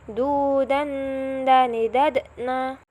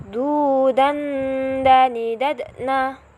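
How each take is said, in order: First: "Du, dan, dani, dadna" drawn out slowly, each syllable stretched; slow repeat. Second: Said in the usual way. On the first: Shown as a demonstration. Teacher repeating the combined syllables slowly for students. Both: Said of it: "Sekarang kita coba gabung".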